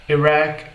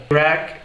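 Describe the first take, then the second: Both takes have the same delivery.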